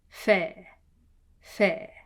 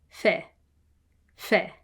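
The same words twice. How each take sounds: The two takes are said the same way.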